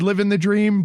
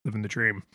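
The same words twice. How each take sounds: First: Said in the usual way. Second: Deadpan and much softer, lower; very flat. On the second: Shown as a demonstration. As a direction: say it with zero enthusiasm, dead flat. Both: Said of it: "but in a very flat".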